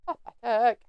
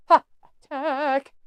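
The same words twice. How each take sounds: First: Said in the usual way. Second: Drawn-out pathetic. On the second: Shown as a demonstration. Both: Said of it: "This is pathetic".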